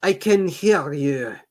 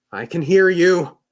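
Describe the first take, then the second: First: Slower, louder anxious guard's call. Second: Anxious. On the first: Guard nervously calling to an unseen stranger, anxious. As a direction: call out nervously, slow and high. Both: Acted. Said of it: "the guard said anxiously".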